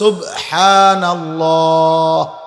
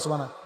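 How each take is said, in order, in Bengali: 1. যত্নসহকারে, প্রতিটি ধ্বনি পূর্ণভাবে উচ্চারিত হয়েছে। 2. তাড়াহুড়ো করে, শেষের h ও b ধ্বনি বাদ পড়েছে। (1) "শব্দ তো হইল সুবহানাল্লাহ" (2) "সুবহানাল্লাহ তো কোনো শব্দ না"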